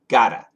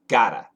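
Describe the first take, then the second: No difference in how they are said.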